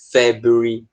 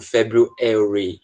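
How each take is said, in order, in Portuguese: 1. Estilo britânico, com a ênfase na sílaba anterior. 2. Estilo americano, com a ênfase na última sílaba. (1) "no inglês britânico, eles tendem a colocar ênfase na sílaba anterior a esse ary" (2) "O americano ele coloca ênfase geralmente no E, tipo February"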